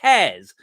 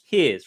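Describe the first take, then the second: First: The vowel sounds like the word 'hair'. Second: The vowel sounds like the word 'here'. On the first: The speaker calls it wrong. "When did I start saying it like that?" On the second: The speaker calls it right. "here's right"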